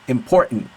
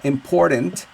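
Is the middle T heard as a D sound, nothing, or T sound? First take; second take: nothing; D sound. First: The middle consonant is dropped entirely. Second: The middle consonant is a soft D sound. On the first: "Or with no T" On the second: "with the D"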